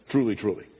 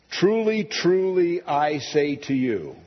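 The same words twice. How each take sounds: First: Said in the usual way. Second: High, ringing "Truly, truly" then slowing; solemn emphasis. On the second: Acted. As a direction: proclaim "Truly, truly" like a trumpet blast. Quoting Jesus' solemn formula.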